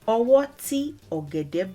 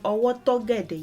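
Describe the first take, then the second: First: Ti and ogede are said as separate words. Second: Ti and ogede are merged into one word. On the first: "if you want to separate them" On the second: "rather than saying"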